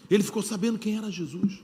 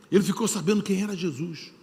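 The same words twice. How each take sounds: The two takes are said the same way.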